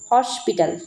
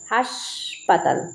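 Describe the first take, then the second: First: It is said as English hospital. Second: It is said as Bengali haspatal. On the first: This is the original form of the word. "Actually তো হসপিটাল কথাটা" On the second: This is how people commonly say it. "লোকেদের মুখে কিন্তু এখন বলে থাকে হাসপাতাল"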